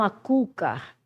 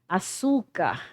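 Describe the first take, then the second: First: The middle consonant sounds like K. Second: The middle consonant sounds like S. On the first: The speaker calls it wrong. "e não" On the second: The speaker calls it right. "ele muda o som do C para S"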